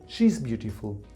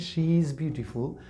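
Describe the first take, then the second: First: Pronoun and verb are merged into one word. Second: Pronoun and verb are said as separate words. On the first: "I can say" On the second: "Instead of saying"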